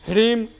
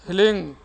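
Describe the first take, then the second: First: It begins with h followed directly by r. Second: It begins with h followed directly by l. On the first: The speaker calls it wrong. "बहुत सारे लोग हलीम तो ह्रीम तो रीम तो ऐसे बोलते हैं" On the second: The speaker calls it right. "ह ल दीर्घिकार ऊपर अनुस्वार"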